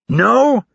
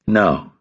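First: High, incredulous howl. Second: Said in the usual way. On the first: A narrator's reading. Instructor outraged at recruit's bare answer, howling. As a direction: howl it back as an outraged question. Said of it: "Hurley howled with a veiny throat". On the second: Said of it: "Rapp said without twitching".

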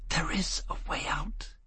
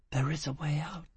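First: Soft, unvoiced, higher whisper; a disembodied whisper in his ear; whisper from nowhere. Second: Soft, unvoiced whisper; sweet murmur in the ear. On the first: Unseen angel whispering escape to Foyle, soft whisper. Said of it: "It whispered in his ear from nowhere". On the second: Angel whispering into Foyle's ear, sweet and comforting. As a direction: breathe it into his ear, comforting. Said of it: "his angel murmured in his ear, sweetly". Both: A narrator's reading.

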